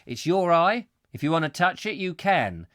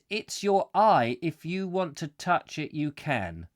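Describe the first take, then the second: First: It breaks after "eye" before "if". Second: It runs straight on from "eye" into "if".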